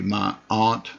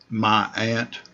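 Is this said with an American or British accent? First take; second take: British; American. First: Aunt is said with a British vowel. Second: Aunt is said with an American vowel. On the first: "they're British" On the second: "that's an American pronunciation"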